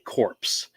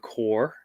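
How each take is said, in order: First: The final p and s are pronounced. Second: The final p and s are silent. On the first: The speaker calls it wrong. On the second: The speaker calls it right.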